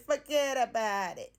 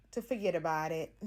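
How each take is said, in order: First: Forget about it in a slow, hammed-up New York accent, louder, fugget-about-it style; deliberately terrible New York accent, playful and slow; bad New York accent. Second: Said in the usual way. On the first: Shown as a demonstration. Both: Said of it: "That is the worst New York accent ever".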